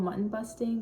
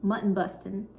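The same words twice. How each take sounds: First: "mutton busting" with a crisp t and full -ing ending; northerner pronunciation. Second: "Mutton busting" with a drawn mut-ten and "bustin'" dropping the g; Texan pronunciation. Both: Shown as a demonstration. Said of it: "that was a really, like, northerner way to say it".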